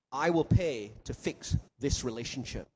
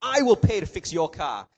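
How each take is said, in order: First: Gentle promise. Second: A louder, earnest promise to pay; louder kind reassurance. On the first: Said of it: "The gospel says". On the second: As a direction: make the generous promise out loud. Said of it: "Don't worry about it". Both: Acted.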